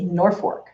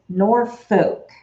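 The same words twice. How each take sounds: First: Norfolk with an R for the L, "Nor-fork"; local pronunciation. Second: Norfolk with the L, second syllable like "folk"; as spelled. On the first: Telling viewers how back home says it, Norfolk as "Nor-fork". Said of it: "We say Norfolk". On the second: Explaining a misleading town name to viewers, Norfolk as spelled, "nor-foke". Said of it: "So you would think it's". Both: Shown as a demonstration.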